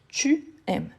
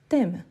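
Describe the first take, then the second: First: The vowel of 'tu' is fully pronounced. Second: The vowel of 'tu' is dropped before 'aimes'. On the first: This is the full standard form. "on ne fait jamais l'élision. Donc on dit tu aimes" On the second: This is a casual spoken form. "Quand on parle, parfois on dit t'aimes"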